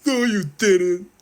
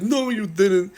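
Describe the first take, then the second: First: High, loud, slow squeaky denial; mock Gary refusing to believe it. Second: High, loud squeaky denial; Gary's repeated shrill refusal; mock denial. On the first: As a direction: squeal it out in disbelief. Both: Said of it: "He's like".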